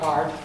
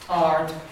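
First: The vowel is cut short. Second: The vowel is held long. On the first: The speaker calls it wrong. "not ard" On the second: The speaker calls it right. "RD is a long A"

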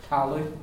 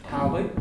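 The two takes are said the same way.

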